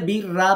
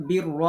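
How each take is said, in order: First: বীর রা with a light, open "raa" at the end; thin ra. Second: বীর র with a thick, rounded "raw" at the end; heavy ro. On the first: Teacher shows the mistaken reading, বীর রা ending thin. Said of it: "রটাকে বারিক করে ফেললো". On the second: Teacher shows the correct reading, বীর র ending heavy and rounded. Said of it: "এজন্য রয় পড়তে হবে". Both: Shown as a demonstration.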